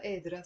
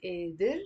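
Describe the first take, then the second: First: قادرة ending in a clear final a; feminine with te marbuta. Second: قادر said without ending, plain final r; masculine form. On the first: Teacher showing the feminine form قادرة. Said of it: "with the te marbuta". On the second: Teacher showing the masculine قادر. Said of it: "if you're a guy". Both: Shown as a demonstration.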